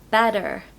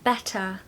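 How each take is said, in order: First: The middle T sounds like a D. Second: The middle T is a clear, soft T. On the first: "in the American accent, the T is more like a D" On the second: "the T in the middle of words is very pronounced"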